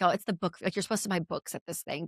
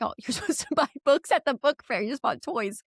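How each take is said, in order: First: Said in the usual way. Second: High, exasperated scolding with a laugh; half-laughing frustration at the kids. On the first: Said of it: "I'm like". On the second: Retold or imitated. Mom scolding kids over book fair toys, exasperated. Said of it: "I was so frustrated".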